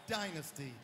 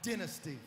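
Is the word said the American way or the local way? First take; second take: American; local. First: It is said with the band's home American pronunciation. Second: It is said with the local audience's pronunciation. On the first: This is how it is said back home. "Back home, it's Dynasty" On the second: This is how the local audience says it. "so we will say it as you say it. Here, it's from the album Dynasty"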